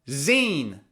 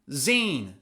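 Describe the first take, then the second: The two takes are said the same way.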